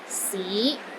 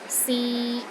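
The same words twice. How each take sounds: First: The pitch rises from low to middle. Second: The pitch stays level in the middle. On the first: It means city. "starts low, then rises to the middle of your range" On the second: It means to try. "a mid-tone"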